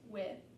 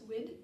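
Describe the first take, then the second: First: The word ends with no final consonant. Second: The word ends with a d sound. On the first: "it just won't be pronounced at all" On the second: "pronounced as a T sound or a D sound"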